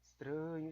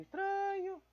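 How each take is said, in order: First: Said in the usual way. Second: "estranho" squeaked in a much higher voice; "estranho" in a mock falsetto, baffled; squeaky high. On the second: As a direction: jump way up into a silly squeak on "estranho". Repeats word, then squeaks it.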